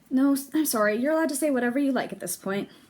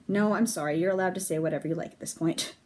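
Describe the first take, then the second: First: It is said in Nona's character voice. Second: It is said in Pyrrha's character voice.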